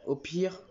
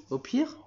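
First: "Au pire" left hanging on a rise; unfinished thought. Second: "au pire" rising sharply into a high question; anxious echo question. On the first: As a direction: begin "Au pire" as a list item, unfinished. Begins the worst case, breaks off. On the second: Other character anxiously echoes it. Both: Acted.

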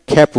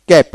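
First: "খ্যাপ" with a puff of air after the K; phonetic aspirated K. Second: Said in the usual way. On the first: Shown as a demonstration. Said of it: "ফোনেটিক্সে খ্যাপ হবে". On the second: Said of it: "আবার এটা খ্যাপ উচ্চারিত হবে".

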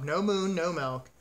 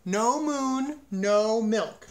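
First: Said in the usual way. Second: High, loud bellow with drawn-out vowels. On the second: A narrator's reading. Cow gives her farmer an ultimatum, bellowing. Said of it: "she bellowed".

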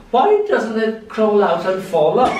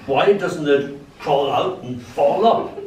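First: Put-on high, puzzled toddler question; child's wonder. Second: Said in the usual way. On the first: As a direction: ask like a wide-eyed little girl. Child version of the line. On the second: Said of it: "I say".

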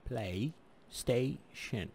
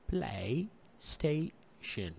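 First: "بلاي ستيشن" said slowly, stressing "ستيشن"; careful English demo. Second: "بلاي ستيشن" said slowly, syllable by syllable; slow English demo. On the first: (تشديد على "ستيشن") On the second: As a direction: spell out "بلاي ستيشن" carefully. (نطق بطيء لـ"بلاي ستيشن") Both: Shown as a demonstration. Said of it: "ايش مثله؟".

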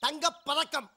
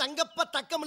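First: தங்கப் பதக்கம் broken before ப; correct word break. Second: தங்கப்ப தக்கம் broken after ப; wrong word break. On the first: Correcting his boss on the film title, giving the properly divided name. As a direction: say "தங்கப்", then "பதக்கம்" as one whole word. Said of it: "பேரு தங்கப்ப தக்கம் இல்ல". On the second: Correcting his boss on the film title, quoting the wrongly split name. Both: Shown as a demonstration.

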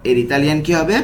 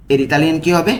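The two takes are said the same way.

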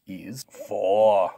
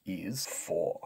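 First: Loud, stretched strongman answer. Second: Said in the usual way. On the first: Pretend. Strongman takes the review quiz, answering loudly. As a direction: belt out the answer with confidence. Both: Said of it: "Take it away".

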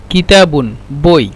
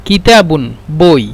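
No difference in how they are said.

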